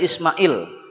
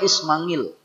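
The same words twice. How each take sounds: First: The middle is a plain vowel without ng. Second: The middle is said with an ng sound. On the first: This is the everyday Indonesian form. "kita sudah jadi Ismail" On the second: This is how Javanese speakers render the ain. "kalau di Jawa dia Ismail. Nah, karena eng adalah ain"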